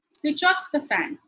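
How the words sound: The stress falls on the word off. The speaker calls it right. "you stress on the off"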